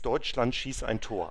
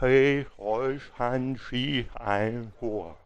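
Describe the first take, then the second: First: The words are articulated clearly and normally. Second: The words are slurred, spoken without moving the tongue.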